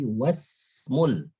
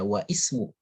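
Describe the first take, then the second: First: The 'i' is dropped, joining 'wa' to 'smu'. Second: The 'i' after 'wa' is pronounced separately. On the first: The speaker calls it right. "tapi wasmul binti Zainab" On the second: The speaker calls it wrong. "Jadi jangan dibaca wa ismu"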